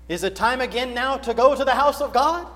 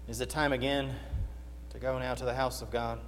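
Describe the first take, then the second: First: It is said with glad eagerness. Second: It is said with weary reluctance.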